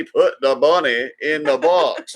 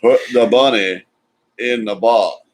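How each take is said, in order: First: Slow, drawn-out Southern drawl quoting Con Air; lightly hammed Southern movie accent; mock Southern accent. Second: Put-on punchy Southern accent quote, a bit louder; lightly hammed Southern accent; mock Southern accent. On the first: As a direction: drag it out in a cheesy Southern accent. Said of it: "His Southern accent was cheesy". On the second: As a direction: hit it like a bad Southern movie line. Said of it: "worst Southern accent ever been attempted".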